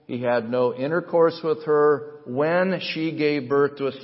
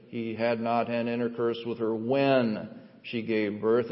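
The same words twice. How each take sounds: First: Said in the usual way. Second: "when" leaned on and held; stress on when. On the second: Shown as a demonstration. Preacher stressing "when" in Matthew's verse for the church. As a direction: lean on the word "when" to make the point. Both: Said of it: "I emphasize that word "when".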